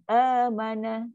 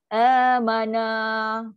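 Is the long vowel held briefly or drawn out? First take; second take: brief; drawn out. First: The long vowel is held for just two beats. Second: The long vowel is stretched well past two beats. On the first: The speaker calls it right. "Dua, satu, satu" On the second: The speaker calls it wrong. "itu dah lebih tu. Lebih daripada dua dah pun"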